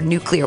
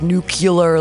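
First: The word is said as 'nuclear'. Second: The word is said as 'nucular'. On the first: "or nuclear" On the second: "I always say it like nuclear, like George W. Bush"

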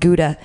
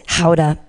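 First: Gouda is said with an English-style pronunciation. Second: Gouda is said with a Dutch-style pronunciation. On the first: This is how we say it. "but we call it" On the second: This is how people in Amsterdam say it. "the Amsterdamians pronounce it"

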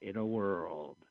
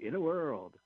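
First: It is said in a dramatic, ominous way. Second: It is said in an upbeat, cheerful way.

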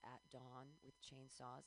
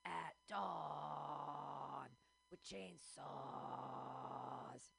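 First: It is said in a normal speaking voice. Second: It is said in a death metal growl.

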